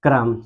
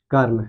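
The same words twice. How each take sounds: First: क्रम said with r clustered onto k, kram; क्रम: k and r together, one quick syllable; क्रम spoken as kram; saying kram. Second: कर्म said with a vowel after k, kar-m; कर्म: open kar, then a closed m; कर्म spoken as karm; saying karm. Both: Shown as a demonstration. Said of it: "पहले इसको जब तोड़ेंगे तो ऐसे तोड़ेंगे".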